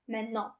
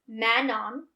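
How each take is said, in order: First: French pronunciation, the final n only lightly grazed. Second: Plain English pronunciation with a full final n. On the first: "When you pronounce it in French, you're just gracing the last N" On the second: "with unaccented"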